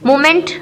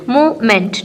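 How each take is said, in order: First: Said in the usual way. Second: movement in two separate beats, मू-मेंट; syllable by syllable. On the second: Shown as a demonstration. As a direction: pause before the meant of movement. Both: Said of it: "syllable division हैं".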